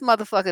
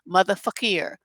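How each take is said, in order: First: It is said in his ordinary accent. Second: It is said in a put-on French accent.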